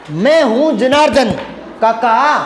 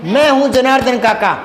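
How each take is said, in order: First: "मैं हूँ Janardan", clear pause, then "काका"; pause before काका. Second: जनार्दन काका said as one unbroken name; one phrase, Janardan running into काका; no comma pause. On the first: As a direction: set काका apart as someone being addressed. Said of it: "तो यहाँ अल्प विराम आएगा". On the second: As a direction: read straight through without pausing before काका. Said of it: "अगर ये comma हटा दें". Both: Shown as a demonstration.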